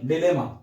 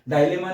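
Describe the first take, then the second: First: The first syllable is pronounced like 'dih'. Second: The first syllable is pronounced like 'die'. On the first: The speaker calls it right. "यहाँ पे डी pronounce हो रहा है" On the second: The speaker calls it wrong. "डायलेमा नहीं"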